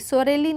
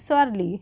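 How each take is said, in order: First: It is said with three syllables, 'so-re-li'. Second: It is said with two syllables, 'sor-li'. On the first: The speaker calls it wrong. "सोरेली नहीं" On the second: The speaker calls it right. "नहीं सोरली"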